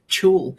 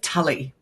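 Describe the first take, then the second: First: The word has one syllable, with no final vowel. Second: The word has two syllables, ending in 'ee'. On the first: The speaker calls it right. "it's a French word" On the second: The speaker calls it wrong. "is that how it's pronounced?"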